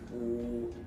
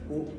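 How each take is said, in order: First: The vowel is long. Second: The vowel is short. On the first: The speaker calls it right. "the sound is longer this time" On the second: The speaker calls it wrong. "instead of u"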